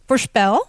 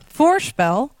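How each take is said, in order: First: "voorspel" with stress on SPEL; stress on second syllable. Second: "voorspel" with stress on VOOR; stress on first syllable. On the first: Lecturer showing the verb, "voorspel" stressed on its last syllable. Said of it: "which is a verb". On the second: Lecturer showing the noun, "voorspel" stressed on its first syllable. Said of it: "stress on the first syllable". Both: Shown as a demonstration.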